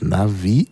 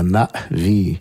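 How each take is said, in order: First: The word flows on without a glottal stop. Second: A glottal stop follows the A. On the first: The speaker calls it wrong. "Ich habe immer gedacht, sie ist Navi" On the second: The speaker calls it right. "Also mit diesem Verschlusslaut nach dem A"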